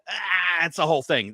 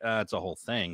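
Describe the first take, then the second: First: It is said in a frustrated, exasperated tone. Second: It is said in a plain, unbothered tone. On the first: The listener will drop the subject. The speaker calls it right. "if you act like you're frustrated you go" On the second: The listener will ask for more details. The speaker calls it wrong. "can't just be like"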